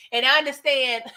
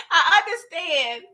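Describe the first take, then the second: First: Said in the usual way. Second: Laughing, drawn out. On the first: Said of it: "I understand (repeated)". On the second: Shown as a demonstration. Teasing Diana on camera, drawing out "I understand" while laughing. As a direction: stretch out "I understand" slowly through a laugh.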